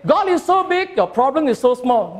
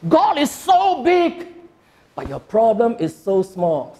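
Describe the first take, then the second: First: It is said flatly, without emphasis. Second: It is said expressively, with strong emphasis.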